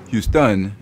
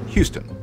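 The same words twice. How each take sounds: First: The stress is on the last syllable. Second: The stress is on the first syllable. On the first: "French speakers will call the Texan city Houston" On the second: "the English Houston"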